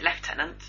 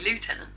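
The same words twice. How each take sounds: First: It is said with the British pronunciation. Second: It is said with the American pronunciation. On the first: "we pronounce it lieutenant" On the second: "They say lieutenant"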